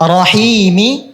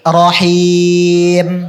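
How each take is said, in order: First: The word ends with a short vowel. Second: The word ends on a silent final consonant. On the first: The reading continues without stopping. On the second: The reader stops at this word.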